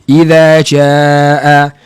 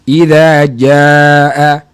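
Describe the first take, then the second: First: The j is made at the tongue tip, breathy. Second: The j is made mid-tongue, firm without breath. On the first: The speaker calls it wrong. "ada orang baca begini, ... huruf jim awak itu tak tepat, kelihatannya dengar seperti bersifat hamas, nafas berlalu" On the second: The speaker calls it right. "Cuba baca huruf jim itu dengan tengah lidah"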